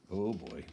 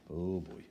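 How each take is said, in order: Both takes have the same delivery.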